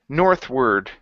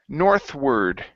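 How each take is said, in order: No difference in how they are said.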